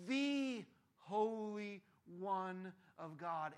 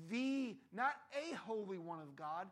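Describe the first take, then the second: First: "the Holy One of God" very slow with "the" stressed. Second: "not a holy one of God" slow with "not" rising. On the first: Preacher stressing "the" for the congregation. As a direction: draw out "the" slowly. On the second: Preacher contrasting "a" with "the" for the congregation. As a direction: lean on "not a" slowly. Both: Shown as a demonstration. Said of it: "contrasting a vs the".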